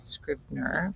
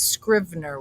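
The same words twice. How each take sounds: First: The middle consonant is a b sound. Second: The middle consonant is a v sound. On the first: The speaker calls it wrong. "not Scrivener" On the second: The speaker calls it right. "Scrivener with a V"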